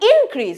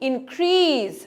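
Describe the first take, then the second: First: The stress is on the first syllable. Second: The stress is on the second syllable. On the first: It is used as a noun. "যখন noun হয় পুরো ওয়ার্ডের প্রথম পার্টটাতে stress হয়" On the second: It is used as a verb. "Verb হলে শেষের পার্টটাতে stress হয়"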